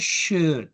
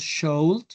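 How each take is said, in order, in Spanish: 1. La L es muda en la palabra. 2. La L se pronuncia en la palabra. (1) "no pronunciamos la L" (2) "no decimos should"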